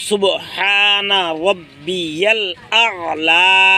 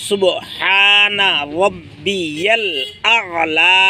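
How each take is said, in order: The two takes are said the same way.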